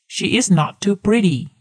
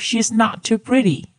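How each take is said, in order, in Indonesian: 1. She dan is adalah dua kata terpisah. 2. She dan is menyatu menjadi satu suku kata. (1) "Coba teman-teman bandingkan ya" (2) "she is di sini bisa kita gabung atau kita singkat menjadi she's"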